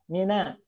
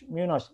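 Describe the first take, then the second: First: The vowel is open, with unrounded lips. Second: The vowel is rounded, with pushed-out lips. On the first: The speaker calls it right. "jangan terbawa monyong oleh shin" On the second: The speaker calls it wrong. "jangan keganggu dengan shin jadi minos"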